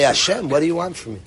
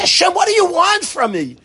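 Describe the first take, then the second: First: It is said in a calm, quiet voice. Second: It is said in an angry, yelling voice. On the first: It is a sincere request for direction. "if you say the same words more calmly" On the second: It is a complaint against being led this way. "We yell at Hashem like that"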